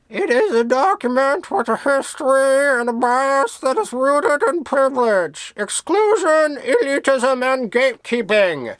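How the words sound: It is read in a Spiky the Worm voice.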